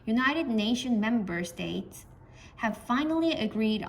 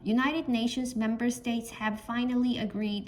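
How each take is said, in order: First: It pauses and falls after the word States. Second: It is read straight through without a pause. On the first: The subject is set apart from the verb. The speaker calls it right. "주어까지 읽을 때 한번 끊어주면서 끝을 내려주시면 됩니다" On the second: It is harder to tell the subject from the verb. The speaker calls it wrong. "이렇게 계속 읽으면"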